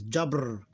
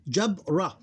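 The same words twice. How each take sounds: First: "jabr" with no vowel after the r; sukun ending. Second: "jabra" split into jab, then ra; closed jab, then open ra with its vowel; syllable by syllable. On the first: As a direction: run b straight into a final r in "jabr". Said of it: "we pronounce it like this". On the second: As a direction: sound out "jabra" with a break before ra. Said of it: "two syllables". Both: Shown as a demonstration.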